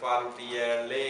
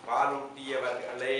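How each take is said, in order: First: The word is said with middle syllables dropped. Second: The word is said with all its syllables. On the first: The speaker calls it wrong. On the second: The speaker calls it right.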